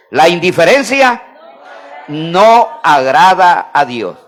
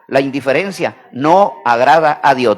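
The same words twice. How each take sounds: First: "no agrada a Dios" slow, each word set apart; slow emphatic repetition. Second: Said in the usual way. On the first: Real, not acted. Preacher leads church in repeating, slow emphatic "no agrada a Dios". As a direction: pause after "indiferencia", then stretch "no agrada a Dios". Repeats slowly after "Diga.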